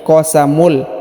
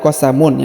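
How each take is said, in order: First: The word ends with an l sound. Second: The word ends with an n sound. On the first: The speaker calls it right. "tapi qasamul" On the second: The speaker calls it wrong. "bukan qasamun"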